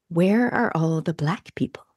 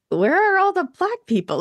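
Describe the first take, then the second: First: Slow hushed whisper, almost secretive. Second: Much higher, astonished question; surprised exclaim. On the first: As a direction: whisper it like a shocked secret question. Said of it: "this was my first reaction". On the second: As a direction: exclaim it in open disbelief. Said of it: "And I was like". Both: Retold or imitated.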